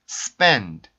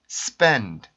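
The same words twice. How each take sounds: First: The final consonant is only a soft puff of air. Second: The final consonant is only a soft puff of air.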